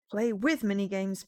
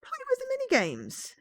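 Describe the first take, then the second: First: Said in the usual way. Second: Much higher, excited choice. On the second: Real, not acted. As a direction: pick it with glee.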